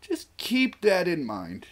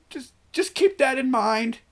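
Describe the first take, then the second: First: Slow, high, drawn-out warning. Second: High-pitched, loud teasing warning; squeaky high warning. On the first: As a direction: stretch the warning out slowly, still high. Playful repeated warning, second take. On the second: Playful repeated warning, first take. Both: Pretend.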